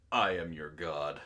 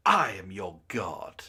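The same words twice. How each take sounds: First: Pitched way lower with an odd timbre; deep god voice. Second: Dramatic god voice. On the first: Acted. Streamer voices the meme's god line, low and grand. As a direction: boom it like a deity. Reading a meme quote in a voice. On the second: Shown as a demonstration. Streamer performs the line at a friend's request, slow and godlike. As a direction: lower and slow, like a proclaiming deity. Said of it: "Fine, you can say it".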